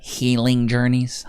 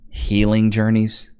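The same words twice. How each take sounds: First: Slow, scornful repeat, asking chat; mocking disbelief. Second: Slow, scornful repeat of healing journeys; mocking disbelief. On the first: Asking chat about the wife's phrase, slow and scornful. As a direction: drag out the words in disbelief. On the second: Commentator mocking the wife's words, scornful and slow. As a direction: sneer at the phrase.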